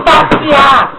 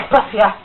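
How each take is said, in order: First: Passear shouted high and loud; shouting. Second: Said in the usual way. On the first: Real, not acted. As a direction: call out Passear at full voice. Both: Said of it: "repeated takes of the word".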